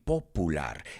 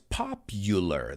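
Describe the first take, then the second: First: The u sounds like a plain oo vowel. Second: The u sounds like the word you. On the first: The speaker calls it wrong. "He oído mucha gente decir popular" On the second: The speaker calls it right. "The U is pronounced like the letter U"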